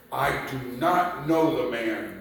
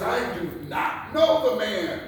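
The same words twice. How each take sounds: First: Firm denial at normal pitch, stress on not; sworn denial. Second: Higher, louder, forceful denial; vehement denial. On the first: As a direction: say it flatly with sworn firmness. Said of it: "invoke a curse on himself and to swear". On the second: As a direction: Peter insists, raising his voice. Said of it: "denied it with an oath". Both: Acted.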